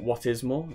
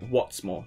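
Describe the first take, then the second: First: The words 'what is' are said in full. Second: The words 'what is' are contracted to 'what's'. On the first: The speaker calls it wrong. "not what is more" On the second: The speaker calls it right. "In proper English, we would say what's more"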